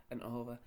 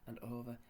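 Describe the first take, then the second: No difference in how they are said.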